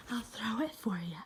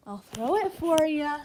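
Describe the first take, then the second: First: Unvoiced teasing whisper. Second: Said in the usual way. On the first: Real, not acted. Owner teasing the dog before the throw, whispering. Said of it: "whispered repeat". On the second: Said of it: "repeated in a whisper".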